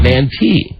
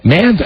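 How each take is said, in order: First: The last syllable ends with an 'ee' sound. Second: The last syllable ends with an 'eye' sound. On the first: The speaker calls it wrong. "Is it man tea?" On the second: The speaker calls it right. "that's how you say Michelle's last name"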